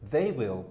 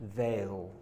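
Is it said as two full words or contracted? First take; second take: full; contracted. First: Both words are said in full. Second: The words are merged into one syllable. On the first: "They will becomes they'll" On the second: "They will becomes they'll"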